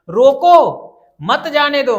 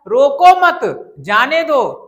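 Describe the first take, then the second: First: The pause comes right after 'roko'. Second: The pause comes right after 'mat'.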